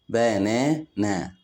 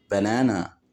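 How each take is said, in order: First: "بنانا" slowly as ba, na, na; split into syllables. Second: Said in the usual way. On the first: Shown as a demonstration. Teacher showing children three syllables, "بنانا" split slowly. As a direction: say "بنانا" in three separate beats. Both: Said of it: "كلمات فيها تلات مقاطع صوتية".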